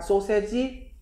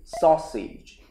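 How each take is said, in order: First: The word is said with Korean-style syllables. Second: The word is said with English-style sounds. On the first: Listeners would not understand it. The speaker calls it wrong. "Can I have 소세지? 아무도 못 알아요" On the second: Listeners would understand it. The speaker calls it right. "Sausage. 해보죠"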